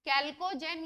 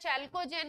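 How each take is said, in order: First: The word begins with a hard k sound. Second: The word begins with a ch sound. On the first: "कैल्कोजेन या चैल्कोजेन इनको pronounce करते हैं" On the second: "कैल्कोजेन या चैल्कोजेन इनको pronounce करते हैं"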